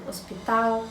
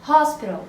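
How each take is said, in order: First: Hospital with a silent h and final l as w, stress on TAL; Hospital in Portuguese, ospitaw; Portuguese pronunciation. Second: Hospital with a breathy English h and stress on HOS; Hospital in English, aspirated h, final l dropped; English pronunciation. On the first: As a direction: say Hospital the Brazilian way, no h. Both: Shown as a demonstration. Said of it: "só vão pronunciar diferente".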